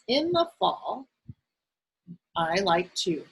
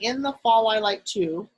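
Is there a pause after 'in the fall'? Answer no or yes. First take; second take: yes; no. First: There is a short pause after 'fall'. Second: It is read straight through without a pause. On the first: The speaker calls it right. "do you notice how I took a pause?" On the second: The speaker calls it wrong. "instead of reading"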